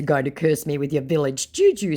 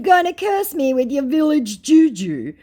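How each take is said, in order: First: Said in the usual way. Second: High, loud taunting question; mocking taunt. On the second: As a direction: jeer at the scammer's curse. Taunting retort to the scammer.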